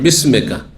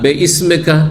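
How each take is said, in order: First: The syllables run together with no catch. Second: A catch separates the first syllable from ismika. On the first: The speaker calls it right. "শুদ্ধ হচ্ছে বিসমিকা, কারণ এই হামজাটি হচ্ছে ওয়াসল" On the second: The speaker calls it wrong. "আমাদের ছোট কালে এইভাবে মুখস্থ করে"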